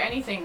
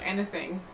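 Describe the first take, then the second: First: Said in the usual way. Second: "anything" with the Australian middle vowel and ending. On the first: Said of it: "say anything like anything". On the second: Shown as a demonstration. Host reading a question on Australian speech, mimicked "anything". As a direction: imitate how Australians say "anything". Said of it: "Why do Australians say anything like anything".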